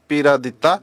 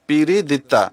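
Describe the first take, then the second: First: The vowel after 'Pir' is an 'a' sound. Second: The vowel after 'Pir' is an 'i' sound. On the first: This is how everyone else called him. "আমরা সবাই তাকে এই নামেই ডাকতাম" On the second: This is how the master called him. "হুজুর আলাইহিস সালাম যখন তাকে ডাকতেন তখন পীরিদিত্তা বলতেন"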